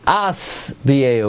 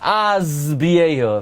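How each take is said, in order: First: The word is said with an S sound. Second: The word is said with a Z sound. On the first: The speaker calls it right. "It's Asbiehu with a sin, not a zayin" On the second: The speaker calls it wrong. "Most people say Oirech Yamim Azbiehu. If you listen here, they say Z"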